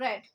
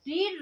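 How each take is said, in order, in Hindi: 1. स्वर एक छोटी e ध्वनि है। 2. स्वर एक लंबी ee ध्वनि है। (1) "बोलते अलग अलग हैं" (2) "फर्स्ट सेकंड थर्ड सेम रहती हैं बस बोलते अलग अलग हैं"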